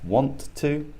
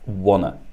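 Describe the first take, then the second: First: Both words are said fully and separately. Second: The words are merged into a reduced form. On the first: "So we have want to" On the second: "Want to becomes wanna"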